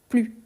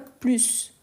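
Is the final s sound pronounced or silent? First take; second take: silent; pronounced. First: The final s sound is silent. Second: The final s sound is pronounced. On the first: The speaker calls it right. "on ne prononce pas le S" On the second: The speaker calls it wrong. "je ne dis pas"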